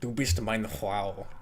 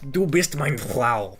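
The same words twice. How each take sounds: First: It is said plainly, without exaggeration. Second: It is said with exaggerated, harsh enunciation.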